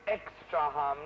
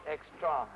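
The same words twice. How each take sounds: First: "extraham" said slowly, each syllable deliberate; correct stress. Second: "extraham" with the wrong stress, quick and offhand; the mistaken "extraham". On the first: Director showing the right Latin stress, slow demo. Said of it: "not extraham". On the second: Director quoting the actor's wrong stress back. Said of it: "it's extraham, not". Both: Shown as a demonstration.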